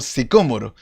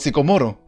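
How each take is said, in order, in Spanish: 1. El acento cae en la segunda sílaba. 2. El acento cae en la tercera sílaba. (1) "Y era un árbol sicómoro" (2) "yo mucho tiempo repitiendo árbol sicomoro"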